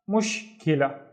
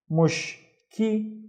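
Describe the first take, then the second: First: Said in the usual way. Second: "mush, ki" as separate higher syllables; one syllable at a time. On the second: Shown as a demonstration. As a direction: break "mush, ki" apart with a clear gap. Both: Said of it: "read it one syllable at a time".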